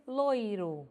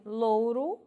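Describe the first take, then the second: First: "loiro" devagar, com ditongo OI; variante com OI. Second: "louro" devagar, com ditongo OU; variante com OU. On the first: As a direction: marque o I de "loiro". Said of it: "pronunciando oi". ("loiro" dito lôi-ro) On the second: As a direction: marque o U de "louro". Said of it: "vai se alternar pronunciando oi". ("louro" dito lôu-ro) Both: Shown as a demonstration.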